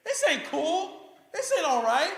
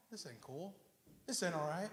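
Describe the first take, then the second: First: High, loud complaint; indignant protest. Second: Low, very soft complaint; quiet grumble. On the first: Childless believer protesting unfairness to God, high and indignant. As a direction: cry out at how unfair it is. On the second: Believer envying others' prosperity, low quiet grumble. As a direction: keep the protest down low. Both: Acted.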